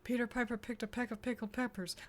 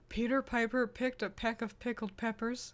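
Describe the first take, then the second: First: It is said at a faster pace. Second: It is said at a normal pace.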